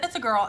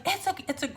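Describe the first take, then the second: First: Said in the usual way. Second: Mock excited yell. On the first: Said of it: "He said". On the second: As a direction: blurt it out, then catch yourself. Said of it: "well, he didn't scream it".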